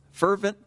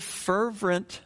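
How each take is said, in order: First: Said in the usual way. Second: "fervent" misspoken with an extra R, as "fervrent"; extra R slip. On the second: Real, not acted. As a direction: slip a second R into "fervent": "fer-vrent". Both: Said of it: "I always wanna throw another R in there".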